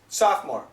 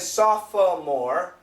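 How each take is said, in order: First: The word is shortened, dropping a middle syllable. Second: Every written syllable is pronounced as spelled. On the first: "but the pronunciation is sophomore" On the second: "The spelling is sophomore"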